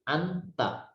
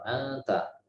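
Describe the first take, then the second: First: The n sound is pronounced fully and clearly. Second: The n sound is faint and blurred, not full. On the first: The speaker calls it wrong. "kalau dibaca jelas begini" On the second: The speaker calls it right. "menjadilah samar-samar"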